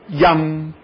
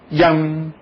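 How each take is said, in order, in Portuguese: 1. Começa com um y suave e fluido. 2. Começa com um y suave e fluido.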